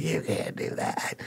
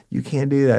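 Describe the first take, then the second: First: Whispered protest. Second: High yelped protest. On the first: Informant protesting arrest, whispered. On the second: Informant protesting arrest, high. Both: Retold or imitated.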